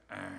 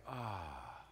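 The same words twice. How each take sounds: First: Low grating "ugh" noise; short mock groan of irritation; displeased groan. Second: Soft, low contented "ah"; gentle sigh of relief; pleased sigh. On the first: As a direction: recoil at a voice you can't stand. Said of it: "you hear a voice that's like". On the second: Acted. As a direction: melt at a voice you love. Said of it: "and the voice is like".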